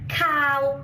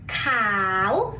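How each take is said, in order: First: The word is said with a mid tone. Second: The word is said with a rising tone. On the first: The word means fishy. The speaker calls it wrong. "the mid tone that means fishy" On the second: The speaker calls it right. "the rising tone"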